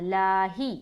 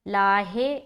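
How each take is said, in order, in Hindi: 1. शब्द का अंत 'ee' स्वर से होता है। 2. शब्द का अंत 'ay' स्वर से होता है। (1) "ही बोलना" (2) "लाहे नहीं बोलेंगे, गलत है"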